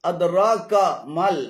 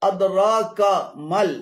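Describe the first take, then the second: Both takes have the same delivery.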